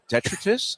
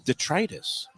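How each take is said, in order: First: The ending does not rhyme with diverticulitis. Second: The ending rhymes with diverticulitis. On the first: The speaker calls it wrong. "I I called it detritus" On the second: The speaker calls it right. "It's actually detritus. Rhymes with diverticulitis"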